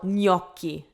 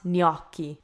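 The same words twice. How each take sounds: First: It begins with a soft 'ny' sound. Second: It begins with a hard G before N. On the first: The speaker calls it right. "So gnocchi" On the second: The speaker calls it wrong. "not gnocchi"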